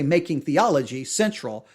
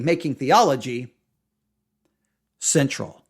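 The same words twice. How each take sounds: First: The phrase runs on without any pause. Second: The phrase has a pause inside it. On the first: "they don't pause" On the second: "some say it should be"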